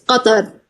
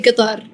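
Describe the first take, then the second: First: It is said in formal Arabic, q from the throat. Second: It is said with a local Qatari dialect pronunciation. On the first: "the way His Highness pronounced it, and everyone in the right way" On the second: "in Qatari dialect it's very weird, but we say"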